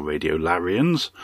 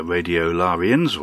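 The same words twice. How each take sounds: First: "Larians" with a short, flat "a" as in "carry"; "Larians" opening like "Larry"; short A pronunciation. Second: "Larians" with a broad, open "ah"; "Larians" opening on a long "lah"; long A pronunciation. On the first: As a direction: say "Larians" as LARR-ians. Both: Shown as a demonstration. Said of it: "depending on how you like your A's pronounced".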